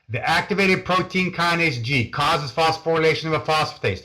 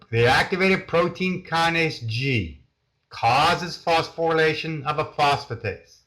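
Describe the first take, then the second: First: It is said very fast. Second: It is said much more slowly.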